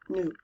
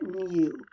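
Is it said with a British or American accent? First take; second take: American; British. First: It is said with an American oo vowel. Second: It is said with a British yoo vowel.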